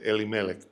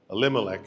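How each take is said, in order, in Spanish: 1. El acento cae donde lo pone el hebreo. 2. El acento cae donde lo pone el inglés. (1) "en hebreo el acento va en otra parte" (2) "Elimelech en inglés, similar like Spanish"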